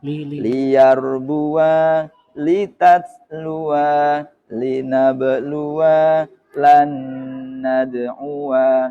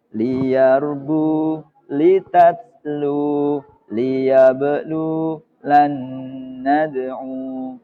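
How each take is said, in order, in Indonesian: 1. Setiap kata berakhir dengan bunyi vokal tambahan. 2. Setiap kata dipotong pendek di akhir.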